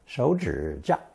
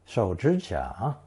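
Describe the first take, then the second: First: It uses a common provincial tone pattern. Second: All three syllables take a third tone. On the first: This is how it is said in many provinces. "in many provinces" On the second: This is the dictionary form. "with three standard third tones"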